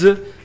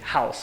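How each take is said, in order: First: The word ends without a plain s sound. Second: The word ends with a plain s sound. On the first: It means to give someone shelter. "muda a pronúncia" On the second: It names a building where people live. "A casa é com S"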